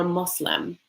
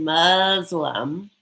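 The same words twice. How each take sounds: First: "Muslim" said MOOS-lim, with a soft s; faith's own pronunciation. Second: "Muslim" drawn out as MUZ-lum, z sound; very American pronunciation. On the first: Advising a bride on his faith, "Muslim" with s. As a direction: say "Muslim" with s, never z. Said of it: "say it the way they say it". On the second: Contrasting two ways to say it, very American "Muslim". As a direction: lean slowly on the American z in "Muslim". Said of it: "very American". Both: Shown as a demonstration.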